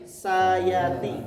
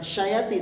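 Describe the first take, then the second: First: The word begins with an s sound. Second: The word begins with an sh sound. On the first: The speaker calls it right. "tapi sayati" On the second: The speaker calls it wrong. "Bukan syayati"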